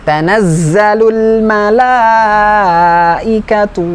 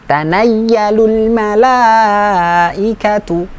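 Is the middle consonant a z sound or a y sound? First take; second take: z sound; y sound. First: The middle consonant sounds like a z. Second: The middle consonant sounds like a y. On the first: The speaker calls it right. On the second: The speaker calls it wrong.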